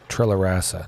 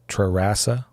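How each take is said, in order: First: The name is said with an L sound. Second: The name is said without an L sound. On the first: "I've always just said Trellarasa, knowing that's completely wrong" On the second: "Not even pronouncing the L there"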